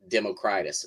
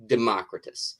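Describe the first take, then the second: First: "Democritus" as demo-CRY-tus; childhood pronunciation. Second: "Democritus" as de-MOCK-ri-tus; short o, stress on MOCK in "Democritus"; probably correct pronunciation. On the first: Writer recalling his reading as a kid, "Democritus" as demo-CRY-tus. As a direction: stress a long CRY in "Democritus". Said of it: "I always pronounced it". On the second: Writer conceding the likely reading, "Democritus" as de-MOCK-ri-tus. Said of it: "it is probably pronounced". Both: Shown as a demonstration.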